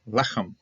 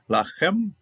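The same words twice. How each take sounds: First: Lechem stressed on its first syllable; Lechem, weight up front, falling off. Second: Lachem stressed on its last syllable; stress on final syllable. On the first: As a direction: say Lechem as LE-khem, the ending light. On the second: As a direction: say Lachem as la-KHEM, slowly. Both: Shown as a demonstration. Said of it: "The other difference in accenting".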